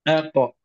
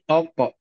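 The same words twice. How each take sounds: First: The first vowel is light and thin. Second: The first vowel is heavy and thick. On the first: The speaker calls it right. "A tipis. Qaf, qaf tebal" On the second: The speaker calls it wrong. "Jangan terpengaruh menjadi aqa"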